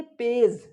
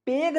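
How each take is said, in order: First: पेज said with a j sound, like page; correct soft g. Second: पेग said with a hard g, like peg; wrong hard g. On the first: Teacher giving the right reading: soft j. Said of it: "पेग नहीं बोल करके क्या बोलेंगे". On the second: Teacher showing the wrong reading: hard g. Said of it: "पेग नहीं बोल करके". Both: Shown as a demonstration.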